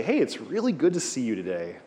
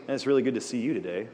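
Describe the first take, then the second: First: Mock salesman's cheery hello; salesy greeting. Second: Quick, genuine and friendly hello; sincere greeting. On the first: Teacher demoing a pushy salesman's greeting. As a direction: greet them like you're about to sell something. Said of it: "What are you gonna sell me?". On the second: Teacher demoing a sincere friendly greeting. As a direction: say it like you truly mean it. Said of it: "You're not thinking I'm selling you anything". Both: Shown as a demonstration.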